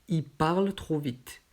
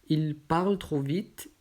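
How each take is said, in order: No difference in how they are said.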